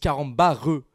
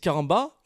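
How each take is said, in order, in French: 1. Le mot se termine par un R bien marqué. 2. Le mot se termine sans aucun son R. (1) "Zarma ils mettent vraiment le R dessus" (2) "t'as des gens qui disent caramba"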